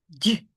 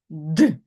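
First: The consonant is soft, palatalized. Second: The consonant is hard, not palatalized. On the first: "Він стає м'яким" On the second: "д язик твердий, напружений"

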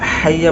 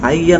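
First: The word begins with an h sound. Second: The word begins with a glottal stop. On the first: The speaker calls it right. "হাইয়া বলতে হবে" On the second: The speaker calls it wrong. "অর্থাৎ হার জায়গাত আমজা উচ্চারণ করে"

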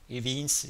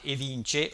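First: The name is read with English sounds. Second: The name is read with Italian sounds.

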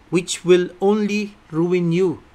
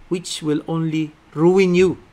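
Both takes have the same delivery.

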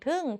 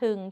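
First: The syllable is said on a falling tone. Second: The syllable is said on a low tone. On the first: "โท" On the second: "เอก"

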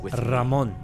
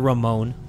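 First: The R at the start is rolled. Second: The R at the start is plain. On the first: The speaker calls it right. "it's Ramon" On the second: The speaker calls it wrong. "not Ramon"

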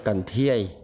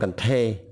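First: The second syllable has an 'ie' glide vowel. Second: The second syllable has a plain 'e' vowel. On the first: This is the pronunciation that follows the spelling. "mình biết là co nổ con thô dĩa thiê dĩa thiê" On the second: This is how people in the south actually say it. "trong thực tế ở Nam Bộ người ta nói con cần thê"

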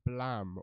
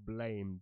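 First: The word is said with a short 'a', 'blam'. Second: The word is said like English 'blame'. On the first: The speaker calls it right. "depending on whether you know how to pronounce it properly, which is Blam" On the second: The speaker calls it wrong. "or Blame, depending on whether you know how to pronounce it properly"

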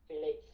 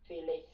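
Both takes have the same delivery.

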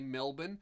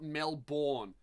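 First: It is said with an Australian pronunciation. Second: It is said with an American pronunciation. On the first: The speaker calls it right. "American artists have finally figured out how to say Melbourne" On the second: The speaker calls it wrong. "and it's not Melbourne"

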